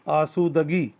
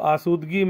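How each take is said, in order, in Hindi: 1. d ध्वनि के बाद 'a' स्वर आता है। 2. d ध्वनि के बाद कोई स्वर नहीं आता। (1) "दाल पर ज़बर" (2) "दाल पर जज्म"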